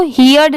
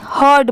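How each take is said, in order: First: "हियर्ड" said like "hee-urd", in two vowels; wrong pronunciation. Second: "हर्ड" said as one syllable, "hurd"; no ee in "हर्ड", straight from h to urd; correct pronunciation. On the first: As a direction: sound an ee before the urd in "हियर्ड". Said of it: "हियर्ड नहीं". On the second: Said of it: "हर्ड पढ़ते हैं". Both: Shown as a demonstration.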